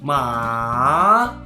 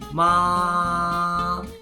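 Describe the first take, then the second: First: The pitch dips low, then rises. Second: The pitch stays high and level. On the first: "it bounces back to first tone after going deeper a bit" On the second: "First tone is the tone with the highest pitch, and it goes flat up there"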